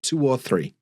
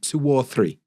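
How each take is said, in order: First: A W sound links two and or. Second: A W sound links two and or.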